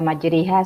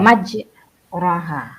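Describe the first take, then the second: First: The vowel after r is tilted toward e. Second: The vowel after r is a plain a. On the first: "Kenapa dibaca majriha?" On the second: "Sebenarnya yang tertulis di situ adalah"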